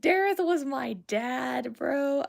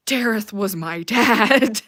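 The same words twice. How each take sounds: First: Slow, drawn-out insistence; insistent restatement. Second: Slow, booming declaration; loud exclamation. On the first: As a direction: stretch it out without shouting. Repeats the exclamation more calmly. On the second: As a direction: shout it out word by word. Exclaims over a favorite character. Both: Real, not acted.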